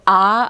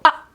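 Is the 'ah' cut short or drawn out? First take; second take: drawn out; cut short. First: The sound is held and drawn out. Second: The sound stops abruptly, cut off short.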